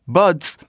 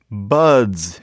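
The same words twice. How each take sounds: First: The plural ending is a hissing s sound. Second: The plural ending is a buzzing z sound. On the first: The speaker calls it wrong. "not buds" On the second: The speaker calls it right. "It's really a z"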